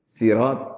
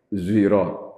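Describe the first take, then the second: First: The word begins with a plain s sound. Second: The word begins with a heavier z-like sound. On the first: "ada yang baca pakai si" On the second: "ada pakai zirat, Itu namanya ismam. Jadi agak agak bacanya itu agak berat"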